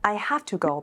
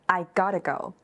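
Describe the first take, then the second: First: Every word is said in full. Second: The middle words are squeezed into one short word.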